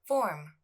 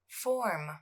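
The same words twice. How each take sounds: First: The word is said at normal speed. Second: The word is said slowly and drawn out. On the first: "then at normal speed" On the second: "I'll pronounce it slowly"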